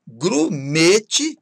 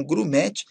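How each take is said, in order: First: GRUMETE with closed ê; timbre fechado. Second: GRUMETE with open é; timbre aberto, errado. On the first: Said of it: "com timbre fechado". (Grumete com ê fechado) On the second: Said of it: "e não grumete". (grumete com é aberto) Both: Shown as a demonstration.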